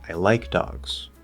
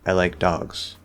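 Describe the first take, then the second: First: The word like is highest and most stressed. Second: The word dogs is highest and most stressed. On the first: It corrects a belief that the speaker dislikes dogs. "if I shift the focus word to like" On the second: It is a neutral statement. "normally, dogs gets that little extra rise"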